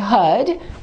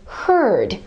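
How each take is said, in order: First: It is said with a silent R, British style. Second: It is said with a pronounced R, American style. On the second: "Americans would say herd"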